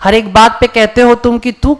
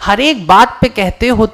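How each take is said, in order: First: It is read in an ordinary, everyday tone. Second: It is read with amused wonder and delight. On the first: This is the usual reading. The speaker calls it wrong. "आमतौर पर हम यही होते हैं" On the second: The speaker marvels at and enjoys the situation. The speaker calls it right. "ये एक मजा है, एक हैरत है"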